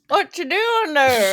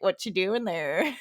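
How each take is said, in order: First: It is mumbled in an exaggerated hillbilly way. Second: It is said clearly in a normal way.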